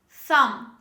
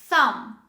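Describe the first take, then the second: The two takes are said the same way.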